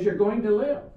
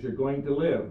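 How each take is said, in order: First: "live" pushed up high and louder, rising; insistent urging. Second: Said in the usual way. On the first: Retold or imitated. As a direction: press her point, pleading, on "live". Wife insists a third time.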